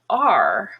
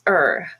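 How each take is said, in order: First: The word is said with its full vowel. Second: The word is reduced to a weak er sound. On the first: The word is stressed. "if it's stressed... pronounced like you normally learn to say it" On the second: The word is unstressed. "if it's unstressed and sort of in the middle between other words, it's er"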